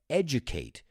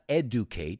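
First: The first syllable sounds like 'edge'. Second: The first syllable does not sound like 'edge'. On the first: The speaker calls it right. "it's edge, like el borde" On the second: The speaker calls it wrong. "It's not educate"

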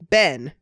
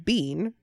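First: The vowel is short, rhyming with Ben. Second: The vowel is long, rhyming with bean. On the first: "or Ben. I guess I do Ben" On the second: "the other options are B-E-A-N, bean"

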